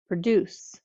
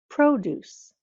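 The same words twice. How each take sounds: First: The stress is on the second syllable. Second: The stress is on the first syllable. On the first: "has the accent on the second syllable" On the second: "The second one has the accent on the first syllable"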